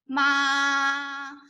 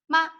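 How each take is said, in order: First: The pitch stays high and level. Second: The syllable is very short and light. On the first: "this is the first tone" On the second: "the neutral tone is a dot, very short"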